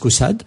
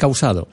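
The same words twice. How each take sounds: First: It is said with a Parisian French pronunciation. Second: It is said with the original Occitan pronunciation. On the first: This is how people from Paris say it. "les Parisiens disent Caussade" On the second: This is the original form kept for centuries. "le vrai nom, bien sûr, c'est Caussade"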